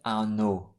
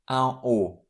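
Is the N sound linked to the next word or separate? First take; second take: linked; separate. First: An N sound links into the next word. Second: The N is silent, with no linking sound. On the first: The speaker calls it wrong. "We never pronounce it un no with this N pronounced" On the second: The speaker calls it right. "This N is always silent"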